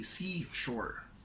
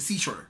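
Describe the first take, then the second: First: The word is said slowly and drawn out. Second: The word is said quickly and short. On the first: The speaker calls it right. "you have to make it longer" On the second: The speaker calls it wrong. "Rather than say seashore"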